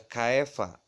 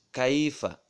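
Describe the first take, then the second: First: "kaifa" said ka-e-fa; wrong glide. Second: "kaifa" with ai closing on i; correct glide. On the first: Teacher shows the forbidden "kaifa", with e for i. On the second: Teacher models the correct "kaifa", kai-fa with a clean i. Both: Shown as a demonstration. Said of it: "nggak boleh kaifa".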